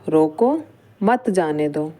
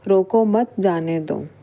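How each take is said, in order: First: There is a pause right after roko. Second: It is said without any pause inside. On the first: Stop the person; do not let them go. "रोको के बाद क्या करा, अल्प विराम लगा दिया" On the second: The meaning is unclear. "यह एक नॉर्मल वाक्य है जिससे हमें कुछ भी अर्थ स्पष्ट नहीं हो रहा है।"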